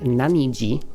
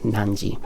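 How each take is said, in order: First: The word has three syllables, na-ni-ji. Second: The word has two syllables, nan-ji. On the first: The speaker calls it wrong. "you wouldn't say naniji" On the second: The speaker calls it right. "You would say nanji"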